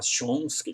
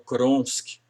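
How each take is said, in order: First: The name begins with a 'sh' sound. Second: The name begins with a 'kr' sound. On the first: The speaker calls it right. "no lugar de falar Chomsky" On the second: The speaker calls it wrong. "ele falou Kronsky"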